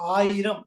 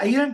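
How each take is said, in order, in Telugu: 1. ఈ పదం దీర్ఘ 'aa' శబ్దంతో మొదలవుతుంది. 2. ఈ పదం 'ai' శబ్దంతో మొదలవుతుంది. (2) "అది ఐరం కాదు"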